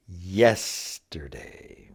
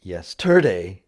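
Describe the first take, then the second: First: "Yesterday" slow, first syllable long and stressed; stress on YES. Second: "yesterday" stressed on TER, yes-TER-day; wrong-syllable stress. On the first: Teacher corrects the stress for learners, "Yesterday" stressed on YES. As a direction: put the weight on YES in "Yesterday". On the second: Teacher shows learners what it's not, "yesterday" stressed on TER. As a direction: punch the middle syllable of "yesterday". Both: Shown as a demonstration. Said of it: "It's not".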